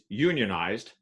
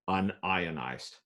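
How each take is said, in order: First: It is said as union plus ized. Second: It is said as un plus ionized. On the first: Organized into a labor union. "to a plumber" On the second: Not ionized. "to a chemist"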